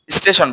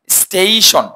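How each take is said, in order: First: স্টেশন with short e and leading i, "is-TE-shon"; wrong pronunciation. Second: স্টেশন with a long high glide, "STAY-shon"; correct pronunciation. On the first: Teacher shows students the mistake, mispronounced. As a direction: say স্টেশন quickly with no glide. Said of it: "ভুল উচ্চারণ". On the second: Teacher drills the right word with students, corrected pronunciation. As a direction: stretch "stei" in স্টেশন. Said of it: "এটা হচ্ছে স্টেশন". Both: Shown as a demonstration.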